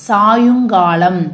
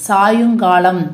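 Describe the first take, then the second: No difference in how they are said.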